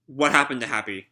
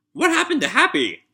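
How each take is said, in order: First: Said in the usual way. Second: Much higher, mock-distressed question; a high, playfully panicked repeat. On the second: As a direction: cry it out high in mock alarm.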